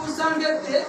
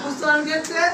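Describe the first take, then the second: The two takes are said the same way.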